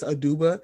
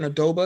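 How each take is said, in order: First: The middle syllable has no 'o' vowel. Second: The middle syllable has an 'o' vowel. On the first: The speaker calls it right. "It's Aduba" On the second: The speaker calls it wrong. "I was saying Adoba because I thought there was an O"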